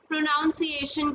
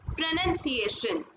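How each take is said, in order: First: The second syllable sounds like 'nounce'. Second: The second syllable sounds like 'nun'. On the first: The speaker calls it wrong. "काफी सारे लोग इसको प्रोनाउंसिएशन कहते हैं, जो कि बिल्कुल ही गलत है" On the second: The speaker calls it right. "इसकी सही एक जिसको बोलने का ढंग बोल सकते हैं वो है प्रोनाउंसिएशन"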